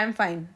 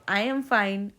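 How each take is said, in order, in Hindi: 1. यह तीखे लहजे में, गुस्से से कहा गया है। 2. यह प्यार से, मुस्कुराते हुए कहा गया है। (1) "गुस्से में" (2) "स्माइल करके"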